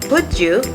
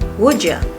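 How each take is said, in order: First: 'You' is said in full. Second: 'You' is reduced to a short 'ya'.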